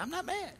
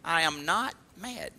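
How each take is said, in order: First: Squeaky high, defensive "I'm not mad"; a hint of a touchy person insisting they're fine; defensive denial. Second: "I am not mad" said slowly, leaning on "not"; firm slow denial. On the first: The touchy person answering "what you mad about," in a mock high denial. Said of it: "You ever heard somebody say". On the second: Shown as a demonstration. The preacher showing the congregation how to say it, firm and slow. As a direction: plant each word calmly, stressing "not".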